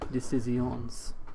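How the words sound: It is said in a French accent.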